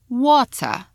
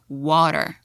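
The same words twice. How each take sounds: First: It is said with a British accent. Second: It is said with an American accent. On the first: "So in British English, we drink" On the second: "And in American, we drink"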